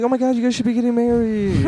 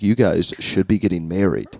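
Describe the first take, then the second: First: It is said in a friendly, excited tone. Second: It is said in an aggressive tone.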